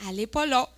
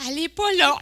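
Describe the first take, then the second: First: Lightly amused statement at moderate volume; comic deadpan report. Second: High, loud comic complaint; mock exasperation. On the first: Retold or imitated. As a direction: report the no-show simply, hint of amusement. Première attente à l'aéroport. (constat comique, retenu) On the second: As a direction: hit the repeated no-show harder, near laughing. Même constat, deux jours plus tard. (exaspération comique, plus appuyée)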